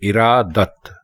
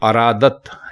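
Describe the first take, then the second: First: The word begins with an i sound. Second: The word begins with an a sound. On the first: The speaker calls it right. "दुरुस्त लफ्ज है इरादत" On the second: The speaker calls it wrong. "अरादत लिखना बिल्कुल गलत है"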